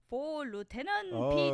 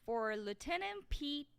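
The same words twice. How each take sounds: First: It is read in a put-on Asian accent. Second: It is read in the speaker's normal accent.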